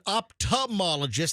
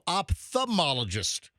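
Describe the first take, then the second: First: The 'th' sound is dropped from the word. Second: The 'th' sound is clearly pronounced in the word. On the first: Others say it this way. The speaker calls it wrong. "You and Fester said ophthalmologist" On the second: The speaker says it this way. The speaker calls it right. "He really overpronounces that T H"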